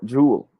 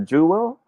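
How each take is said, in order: First: "jewel" squeezed into a single jool; one-syllable jewel. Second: "jewel" split into joo and wel; two-syllable jewel. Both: Shown as a demonstration. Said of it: "a one-syllable word".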